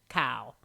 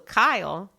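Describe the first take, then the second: First: The name sounds close to 'cow'. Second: The name is said clearly as 'Kyle'. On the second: "make sure you say Kyle"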